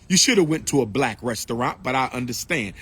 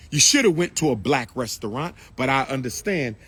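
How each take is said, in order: Both takes have the same delivery.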